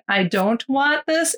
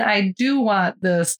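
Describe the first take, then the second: First: "I don't want this" said slowly, each word clear; slow careful demo. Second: "I do want this" said slowly, each word clear; slow careful demo. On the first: Showing the hard-to-hear phrase, said slowly. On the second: Contrasting phrase for the listener, said slowly. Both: Shown as a demonstration. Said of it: "hard to hear the difference between".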